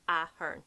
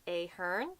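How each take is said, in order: First: Ahern as AH-hern, short open A; correct Ahern. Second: Ahern as AY-hern, rising at the end; wrong Ahern. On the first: Correcting the wrong version for viewers, AH-hern. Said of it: "you go down the ways". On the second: Showing what to avoid, AY-hern going up. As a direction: say Ahern with long AY, lifting. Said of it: "It's not like". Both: Shown as a demonstration.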